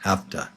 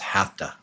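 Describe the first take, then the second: First: The words are reduced into one short word. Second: The same.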